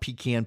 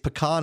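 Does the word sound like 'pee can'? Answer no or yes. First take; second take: yes; no. First: The word sounds like 'pee can'. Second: The word does not sound like 'pee can'. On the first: The speaker calls it wrong. "It's not pecan. Pecan is something you can flush" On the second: The speaker calls it right. "it's pecan"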